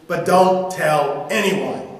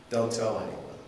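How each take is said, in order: First: Slow, firm, a bit louder; firm warning. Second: Low, softer aside; quiet echo. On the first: Jesus warns the healed man, firmly. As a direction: lean on "don't". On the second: Preacher repeats Jesus' order, quietly. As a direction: drop the voice, musing. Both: Acted.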